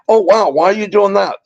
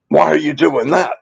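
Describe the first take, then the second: First: It sounds positive and curious. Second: It sounds negative and accusing.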